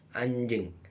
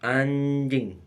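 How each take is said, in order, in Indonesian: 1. Kata itu diucapkan dengan nada bercanda. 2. Kata itu diucapkan dengan nada marah. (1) "Tutur yang kedua terjadi waktu sedang bercanda dengan kawannya" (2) "Nada dalam tutur yang pertama melukiskan kemarahan atau kekecewaan"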